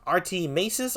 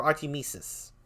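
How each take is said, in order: First: "Masis" said as MAY-sis; pronunciation option. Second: "Mesis" said as MEE-sis; pronunciation option. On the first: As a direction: say "Artie Masis" with a long AY in "Masis". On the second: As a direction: say "Artie Mesis" with a long EE in "Mesis". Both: Shown as a demonstration. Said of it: "is it pronounced".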